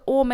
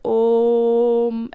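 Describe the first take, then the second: First: The word is said short and quick. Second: The vowel is stretched out long.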